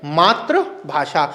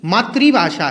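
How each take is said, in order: First: "मातृभाषा" slowly as maatra ... bhaashaa; slow wrong form. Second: "मातृभाषा" slowly as maa-tri-bhaashaa; corrected pronunciation. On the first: Teacher spelling out the common error, "मातृभाषा" slowly as maatra-bhasha. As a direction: draw out maatra-bhasha for "मातृभाषा", tra not tri. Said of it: "क्या बोलते हैं?". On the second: Teacher correcting what Hindi is called, "मातृभाषा" as maatri-bhasha. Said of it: "मातृभाषा नहीं है". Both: Shown as a demonstration.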